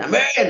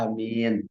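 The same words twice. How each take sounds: First: The word is said very loudly. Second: The word is said at normal volume. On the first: The speaker calls it wrong. "jangan sampai" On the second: The speaker calls it right. "Aminnya biasa saja"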